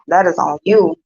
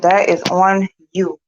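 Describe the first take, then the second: First: Said in the usual way. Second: "That is on you" said slowly, each word weighted; mother repeating a verdict to daughter, slow and firm; slow emphatic repeat. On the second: Retold or imitated. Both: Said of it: "I said".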